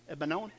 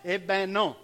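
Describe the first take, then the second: First: The phrase is said quickly, running together. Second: The phrase is said at a normal pace.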